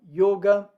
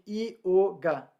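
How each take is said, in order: First: The first sound glides quickly into the vowel. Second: The first sound is a separate syllable. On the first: "o Y, ele é essa semivogal que ela é muito breve, ela está sempre emendada numa vogal" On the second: "que é diferente de ioga"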